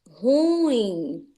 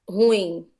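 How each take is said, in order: First: The u and i fall in separate syllables. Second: The u and i merge into one syllable. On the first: The speaker calls it right. "A pronúncia correta é ruim ... o U fica numa sílaba e o I fica na outra" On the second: The speaker calls it wrong. "Não se fala é, ruim ... Se fosse ruim, aí sim seria ditongo"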